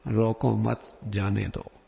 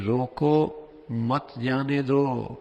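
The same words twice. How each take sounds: First: "روکو مت" run together, then "جانے دو"; pause after مت. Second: Slow "روکو", break, then "مت جانے دو"; pause after روکو. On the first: Gatekeeper misreads the note, grouping روکو مت before جانے دو. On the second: Note writer tells gatekeeper to stop him, pause after روکو. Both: Shown as a demonstration. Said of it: "اور وہ اسے یوں پڑھنے لگ جائے".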